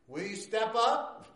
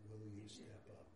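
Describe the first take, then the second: First: It is said loudly. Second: It is said softly.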